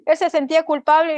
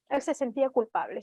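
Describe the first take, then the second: First: "Él se sentía culpable" louder, pressed home; emphatic repeat. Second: "él se sentía culpable" said softly, dropping the voice; quiet. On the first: Preacher stressing the man's guilt to listeners, emphatic. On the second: Preacher telling the guilty man's story, hushed. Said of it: "Él se sentía culpable y dice". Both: Shown as a demonstration.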